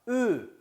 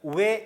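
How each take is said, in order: First: The lips stay rounded without opening. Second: The rounded vowel glides open toward e. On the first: The speaker calls it right. "입 모양을 벌리지 말고" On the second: The speaker calls it wrong. "우리말로 왜 내지는 왜 이렇게 발음하면 안 돼요"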